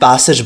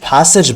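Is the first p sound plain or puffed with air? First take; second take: plain; puffed. First: The first p is plain, without a puff. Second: The first p has a breathy, f-like puff. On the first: This is how local learners say it. "अब हम उसे पैसेज बोल रहे होते हैं" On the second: This is how native speakers say it. "वो पै को हल्का सा फै करते हैं"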